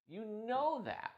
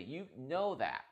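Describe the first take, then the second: First: Second "You know that." pitched much higher and slower; exasperated "You know that."; emphatic higher repeat. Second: Said in the usual way. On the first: Real, not acted. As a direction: lean hard on "You know that." rising up high. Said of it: "repeated higher". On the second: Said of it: "repeated for emphasis".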